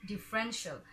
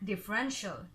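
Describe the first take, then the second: No difference in how they are said.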